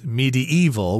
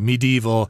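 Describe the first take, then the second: First: The word is said with four syllables. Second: The word is said with three syllables. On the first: "with an extra syllable in there" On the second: "I just kind of skip over that syllable"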